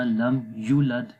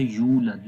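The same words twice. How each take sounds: First: یولد with a clipped, short یو; wrongly shortened. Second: یولد with a long یو; یولد with proper lengthening; correct long yu. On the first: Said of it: "یا کو لمبا نہیں کیا". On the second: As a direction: hold the yu in یولد. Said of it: "یو کو لمبا کرنا ہے". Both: Shown as a demonstration.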